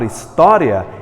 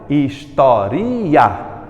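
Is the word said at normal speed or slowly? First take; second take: normal; slow. First: The word is said smoothly at normal speed. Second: The word is said slowly, syllable by syllable.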